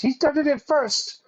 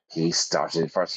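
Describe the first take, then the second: First: Very high mock-childish whine; squealed protest. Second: Said in the usual way. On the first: President blames rival to David, squealed protest. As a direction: squeak out the accusation, far above usual voice.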